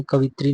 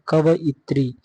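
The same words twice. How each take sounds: First: कवित्री run together in three syllables; wrong pronunciation. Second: कवइत्री with va and i pulled apart; correct pronunciation. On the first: Teacher showing the wrong form, run-together "kavitri". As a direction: say कवित्री as "ka-vit-ri". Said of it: "नहीं होता है". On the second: Teacher giving the correct form, split "kava-itri". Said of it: "कवइत्री होता है". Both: Shown as a demonstration.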